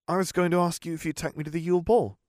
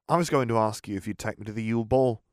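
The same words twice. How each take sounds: First: It is read with forced, fake happiness. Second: It is read plainly, without forced cheer.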